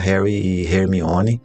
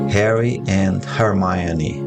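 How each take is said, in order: First: The names are pronounced the Portuguese way. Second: The names are pronounced the English way.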